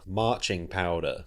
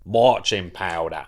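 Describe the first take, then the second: First: It is said in a standard accent. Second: It is said in a Cockney accent. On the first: The speaker calls it wrong. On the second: The speaker calls it right.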